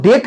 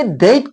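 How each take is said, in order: First: डेट with a pure long e, no glide; Indian-style DATE. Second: डेट with a glide from e to i; English-style DATE. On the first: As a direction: say डेट as 'det' with a long steady vowel. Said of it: "डेट कहते हैं नहीं". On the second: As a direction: say डेट as 'deyt'. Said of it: "आखिर ये डेट कहते हैं". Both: Shown as a demonstration.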